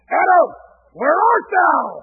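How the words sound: It sounds harsh and angry, like an arresting officer.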